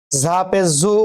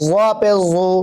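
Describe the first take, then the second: First: "জু" as a thin, buzzing zu. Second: "জু" as a heavy, dark zu; thick z. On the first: Teacher contrasts za with zwa, thin z. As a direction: keep the "জ" of "জু" light as z. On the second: Teacher contrasts zwa with za, thick z. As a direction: fatten the "জ" of "জু". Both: Shown as a demonstration. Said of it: "একটা মোটা একটা পাতলা".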